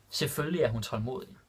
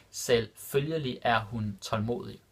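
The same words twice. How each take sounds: First: Said in the usual way. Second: Selvfølgelig er hun tålmodig drawn out slowly, each syllable clear. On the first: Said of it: "repeated slower". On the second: Shown as a demonstration. Teacher repeating the Danish example for learners, slow and clear. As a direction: stretch it out so learners hear every sound. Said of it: "repeated slower for learners".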